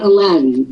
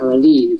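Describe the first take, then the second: First: The name is said with an English pronunciation. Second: The name is said with an Arabic pronunciation. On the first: The speaker calls it wrong. "that's the English pronunciation" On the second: The speaker calls it right. "of course, is the Arabic"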